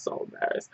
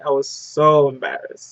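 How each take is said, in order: First: So embarrassed, breathed out in a whisper; real embarrassment, whispered to herself. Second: Said in the usual way. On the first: Real, not acted. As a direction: drop to a whisper on the repeat. Repeats the phrase, then whispers.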